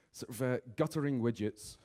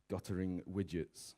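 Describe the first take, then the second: First: Said in the usual way. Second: "guttering widgets" spelt out slowly and softer, as if typed; slow typing voice. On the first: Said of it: "you go in and you type in". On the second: Retold or imitated. Searcher typing the words into Google, slow and soft. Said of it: "you type in".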